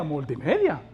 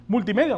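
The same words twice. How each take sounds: First: "multimedia" low and final, like an answer; "multimedia" said lower and falling. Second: "Multimedia" with a light questioning rise; like reading out a ministry name; "Multimedia" asked, rising. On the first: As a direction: drop the voice to confirm. ("multimedia" más grave, cayendo, como respuesta) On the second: ("Multimedia" en tono de pregunta ligera) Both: Shown as a demonstration.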